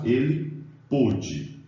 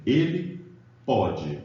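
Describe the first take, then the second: First: Pôde said slowly with a closed o, as in past-tense pôde. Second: Pode said with an open o, as in present-tense pode. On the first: Teacher showing students past-tense pôde, slow closed o. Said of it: "No segundo caso". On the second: Teacher showing students present-tense pode, open o. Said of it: "no primeiro caso, eu tô dizendo". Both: Shown as a demonstration.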